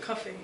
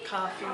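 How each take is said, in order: First: It is said in an English accent. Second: It is said in a Canadian accent.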